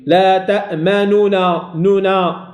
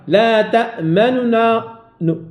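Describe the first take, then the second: First: The vowel on the n is pronounced in full. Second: The vowel on the n is only partly pronounced. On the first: The speaker calls it wrong. "ماشي ... هذه حركة تامة" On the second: The speaker calls it right. "قراءة الاختلاس ... النطق ببعض الحركة"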